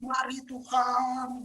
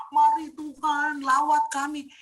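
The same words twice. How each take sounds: First: Slow, drawn-out plea to God; mock beggar pleading with God; begging prayer. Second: Loud, high, slow bossy summons to God; ordering God like a servant; mock commanding prayer. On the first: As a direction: beg like a pauper, stretching it out. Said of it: "Kita kayak pengemis bahkan". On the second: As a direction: order God around, drawn out. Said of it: "Itu kamu penghinaan".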